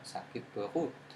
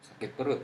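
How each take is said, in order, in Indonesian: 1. Bunyi r-nya gaya Prancis. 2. Bunyi r-nya r Indonesia biasa.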